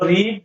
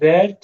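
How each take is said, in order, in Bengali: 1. স্বরধ্বনিটি একটি দীর্ঘ 'ee' ধ্বনি। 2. স্বরধ্বনিটি একটি হ্রস্ব 'e' ধ্বনি। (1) "যদি বলো রিড, পড়ি" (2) "আই রেড, পড়লাম"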